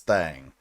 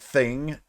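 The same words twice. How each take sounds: First: The vowel is a broad Southern 'a' sound. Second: The vowel is a short 'i' sound. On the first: "it comes out as" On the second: "we're usually saying thing"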